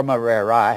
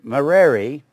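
First: "Merari" with the final I said as spelt; Merari ending in EYE. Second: "Merari" with the final I said like an E; Merari ending in EE. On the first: Teacher showing what it looks like, Merari ending "eye". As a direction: say Merari as "muh-RAIR-eye". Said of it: "I say Merari so you can see what it looks like". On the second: Teacher showing the usual way, Merari ending "ee". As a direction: say Merari as "muh-RAIR-ee". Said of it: "the I is usually pronounced like an E". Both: Shown as a demonstration.

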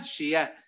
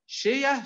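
First: Said in the usual way. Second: شية jumps high; high stressed take. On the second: Shown as a demonstration. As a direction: lift شية sharply up. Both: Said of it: "أذكركم بأمثلة تعرفونها".

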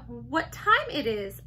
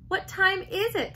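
First: Said in the usual way. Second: "What time is it" with TIME pitched high; corrective. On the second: A narrator's reading. Daughter correcting her mother, "What time is it" with high "time". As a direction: model "What time is it" clearly, lifting "time". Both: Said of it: "Saya corrected her".

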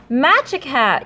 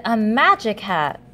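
First: Gasping, slow discovery. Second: Said in the usual way. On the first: Acted. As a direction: gasp as the idea hits.

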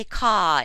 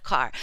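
First: "caw", car with no R at the end; dropped R. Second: Said in the usual way. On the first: Shown as a demonstration. Linguist showing listeners British speech, dropped R in "caw". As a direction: say "caw" with the final R left off. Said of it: "They drop their R's". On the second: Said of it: "instead of".

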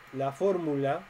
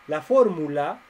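First: Said in the usual way. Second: "fórmula" punched louder with a rise; "La fórmula" called out louder, rising on "fórmula"; stress on fórmula. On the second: Shown as a demonstration. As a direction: announce the word to grab attention.

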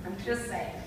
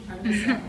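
First: Softer laughing repeat; quiet aside. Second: Laughing. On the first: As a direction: mutter it again under a laugh. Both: Real, not acted.

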